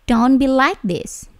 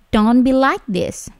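Both takes have the same delivery.

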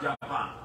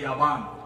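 First: It is said with a J start and a P. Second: It is said with a Y start and a B. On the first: "not Japan" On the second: "so they say Yaban"

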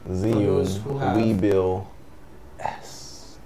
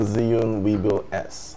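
First: The name is said slowly and carefully. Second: The name is said at a normal pace.

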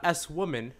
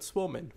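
First: The S is said as a separate letter. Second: The S is blended into one word. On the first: The speaker calls it wrong. "not S woman" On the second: The speaker calls it right. "but Swoman"

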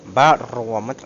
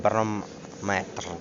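First: The stress falls before the final syllable. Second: The stress falls on the final syllable. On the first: The speaker calls it right. "по-іншому це буде" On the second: The speaker calls it wrong. "а не барометр"

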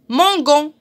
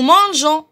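First: The g is hard, like the g in go. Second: The g is soft, like the s in measure. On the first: The speaker calls it wrong. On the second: The speaker calls it right.

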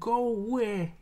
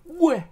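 First: It is said slowly as two clear words. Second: It is said fast as one quick syllable. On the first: "if you listen carefully, you can kind of hear it" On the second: "But you say it really fast"

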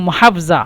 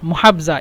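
The two takes are said the same way.

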